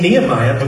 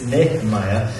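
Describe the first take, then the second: First: The name is said the common American way. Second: The name is said a different, non-American way. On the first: This is how Americans usually say it. The speaker calls it wrong. "It's only Nehemiah because we're American" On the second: This is the technically correct way to say it. The speaker calls it right. "But technically it's Nehemiah"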